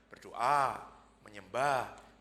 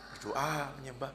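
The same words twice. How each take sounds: First: Said in the usual way. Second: A teasing, mocking "Berdoa, menyembah." with no cheer in it. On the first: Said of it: "Nadanya itu bukan memberi semangat". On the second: Answering the pastor's question with a mocking tone. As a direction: say "Berdoa, menyembah." as a taunt, not as encouragement. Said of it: "Ngeledek gitu loh".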